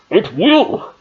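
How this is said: It is said in a Bane impression voice.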